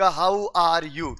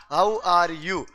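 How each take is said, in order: First: Very slow, drawn-out How are you; drilling the phrase. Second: Said in the usual way. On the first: Retold or imitated. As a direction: stretch each word as if teaching it. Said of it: "आप उनको बोलोगे कि". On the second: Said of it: "क्या बोलोगे भाई".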